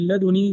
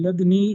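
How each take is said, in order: First: لدني with one short, ungeminated n: laduni; لدني with a lightened nun; light single nun. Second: لدني as lad-ni, no vowel after the d; لدني with a silent-vowel dal, straight into ni; vowelless dal. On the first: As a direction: say لدني as la-du-ni, the n not doubled. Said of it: "بتخفيف النون". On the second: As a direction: close the first syllable of لدني on d. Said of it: "بتسكين الدال". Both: Shown as a demonstration.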